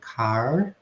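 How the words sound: The final R is pronounced. "no rhotic esse som sendo pronunciado como R"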